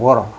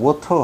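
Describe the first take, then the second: First: It has a flapped American t sound. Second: It has a clear British t sound.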